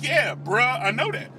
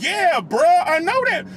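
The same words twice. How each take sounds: First: Said in the usual way. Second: Louder and higher, fed up now; exasperated yell. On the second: Retold or imitated. Yelling back at the man bragging about his car, exasperated. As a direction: bark it back, sick of hearing it. Repeat answer, losing patience.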